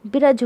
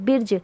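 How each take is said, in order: First: बिरज in two syllables, "bi-raj"; full r with its vowel in बिरज; reading without jazm. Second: बिरज said "birj", no vowel between r and j; one-syllable बिरज, "birj"; half-sounded r. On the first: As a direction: put a short vowel between r and j in बिरज. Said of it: "रे के ऊपर जज़म नहीं होता". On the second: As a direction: run r straight into j in बिरज. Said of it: "रे के ऊपर जज़म है". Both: Shown as a demonstration.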